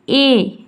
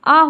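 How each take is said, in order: First: The word is said with a long 'ay' vowel. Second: The word is said with a short 'uh' vowel. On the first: The letter is named on its own. The speaker calls it wrong. "ना कि ए" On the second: The article is used inside a sentence. The speaker calls it right. "जब भी हम भी किसी ए किसी वाक्य में अकेले आता है तो उसका उच्चारण हमेशा आ होता है"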